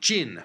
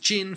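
First: Jin is said with the fourth tone. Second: Jin is said with the first tone. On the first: It names the dynasty of the 4th century A.D. "fourth tone" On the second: It names the Jurchen dynasty. "first tone"

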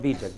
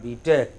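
First: The stress is on the first part. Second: The stress is on the last part. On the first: The speaker calls it wrong. "Not B.Tech" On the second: The speaker calls it right. "Stress on the last letter"

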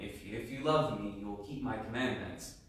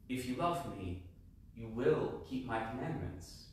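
First: It sounds stern, like a warning. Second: It sounds warm, like a promise.

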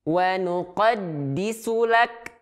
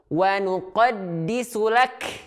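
First: The final k has a light puff of breath. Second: The final k has an exaggerated puff of breath. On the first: The speaker calls it right. "Jadi normal-normal saja" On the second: The speaker calls it wrong. "justru dia berlebihan"

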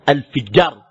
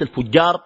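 First: The vowel after the f is i. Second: The vowel after the f is a. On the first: The speaker calls it right. "بكسر الفاء" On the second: The speaker calls it wrong. "وليس الفجار. وهذا من الخطأ"

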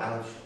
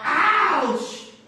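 First: It is said quietly, without force. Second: It is yelled loudly.

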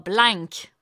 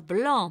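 First: The vowel is oral with a final k. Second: The vowel is nasal with no final consonant. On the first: The speaker calls it wrong. "pas blank" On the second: The speaker calls it right. "On dit le vin blanc"

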